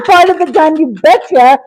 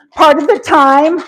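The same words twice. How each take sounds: First: Laughing it out fast and higher; tickled, rushing the words through a laugh; laughing repeat. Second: Said in the usual way. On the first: Real, not acted. Answering chat about her teepee, laughing.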